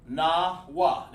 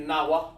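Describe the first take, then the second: First: NAWA as two slow, separate beats, na, wa; broken into syllables. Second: NAWA said quickly as one word; run together. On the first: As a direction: say "Nawa" slowly with a gap after Na. Demonstrates the word syllable by syllable. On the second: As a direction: say "Nawa" in one go, no gap between Na and wa. Contrasts the run-together way of saying it. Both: Shown as a demonstration.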